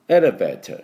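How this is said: It is said with a crisp, clear t sound. "多分イギリス系の音だったら"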